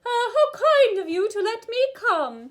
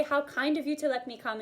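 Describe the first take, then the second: First: Very high, loud head-voice impression; sing-song, ringing head register demo. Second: Lighter head-voice impression; somewhat high, milder demo of a head voice. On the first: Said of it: "more of our [name] voice". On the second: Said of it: "in your best [name] voice". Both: Shown as a demonstration.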